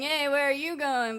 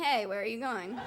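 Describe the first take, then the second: First: The street guy she thought was harassing her, mildly pushy; heard as a catcall. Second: Said in the usual way. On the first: Retold or imitated. Mock menacing catcall. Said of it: "I thought he was saying". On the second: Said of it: "But he was just saying".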